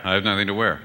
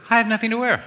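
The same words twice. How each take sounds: First: Lower, plain husband voice, stress on wear; husband's version of the line, said low and plain. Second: High mock-wife voice, stress on I; wife's version of the line, said high. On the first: Retold or imitated. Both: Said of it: "they both said the same thing".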